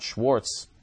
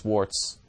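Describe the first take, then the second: First: The name starts with an sh sound. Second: The name starts with a plain s sound. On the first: The speaker calls it wrong. "It's not Schwartz" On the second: The speaker calls it right. "it's Swartz. S-W-A-R-T-Z"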